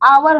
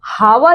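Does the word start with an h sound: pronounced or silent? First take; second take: silent; pronounced. First: The word begins with a vowel, no h. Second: The word begins with an audible h sound. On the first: The speaker calls it right. "आवर होता है" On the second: The speaker calls it wrong. "ये हावर या हॉनेस्ट नहीं होता है"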